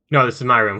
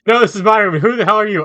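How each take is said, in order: First: Said in the usual way. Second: High, loud furious yell; angry shout. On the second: Acted. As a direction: shout right into his ear. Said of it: "Someone had just shouted in my ear".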